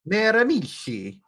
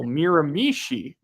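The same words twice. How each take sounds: First: Miramichi with a rolled Italian lilt, joking; mock Italian Miramichi. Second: Slow Miramichi, stress on the final syllable; Miramichi stressed on last syllable. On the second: Shown as a demonstration. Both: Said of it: "Say it with me".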